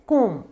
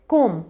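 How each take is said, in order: No difference in how they are said.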